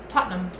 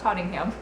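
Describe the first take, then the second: First: The name is said shortened, not every letter. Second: The name is said with every letter sounded. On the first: The speaker calls it right. "Tottenham is how you say it" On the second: The speaker calls it wrong. "not Tottingham"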